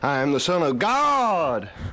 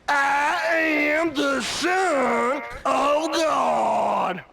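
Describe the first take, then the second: First: It is said at normal, faster pace. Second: It is said slowly.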